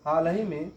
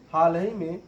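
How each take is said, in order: Both takes have the same delivery.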